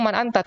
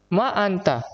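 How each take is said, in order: First: "Man anta" with a clear final n on "Man"; correct form man. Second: "Ma anta" with the short wrong ma; wrong form ma. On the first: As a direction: show the right way, closing "Man" on n. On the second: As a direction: show the mistake, saying "Ma" instead of man. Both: Shown as a demonstration. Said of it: "Seharusnya saya ngomong".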